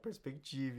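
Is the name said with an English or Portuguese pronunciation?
Portuguese. The name is said with a Portuguese pronunciation. This is how the company says its own name. "a gente fala Perspective"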